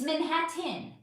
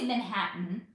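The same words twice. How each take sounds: First: The T sound is pronounced clearly and crisply. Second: The T sound is swallowed, not clearly pronounced. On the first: The speaker calls it right. "I know how to enunciate clearly" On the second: The speaker calls it wrong. "I don't say Manhattan"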